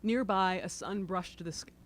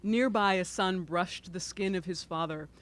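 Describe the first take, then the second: First: Choked up, throat tight; choking up. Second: Said in the usual way. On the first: Real, not acted. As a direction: voice catching with emotion. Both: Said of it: "I sound like I'm choking up".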